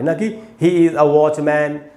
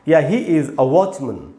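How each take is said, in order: First: The last syllable is a full open 'man'. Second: The last syllable is a short reduced 'mun'. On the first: The speaker calls it wrong. "ना कि" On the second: The speaker calls it right. "इनका उच्चारण है मन"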